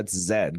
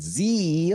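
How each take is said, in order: First: The letter name ends with a d sound. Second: The letter name ends with an ee sound. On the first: The speaker calls it right. "bro, it's Zed. Come on" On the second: The speaker calls it wrong. "what are we doing? Z. Like, shut up"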